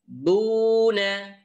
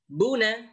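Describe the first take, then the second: First: The first vowel is held long. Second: The first vowel is short and quick.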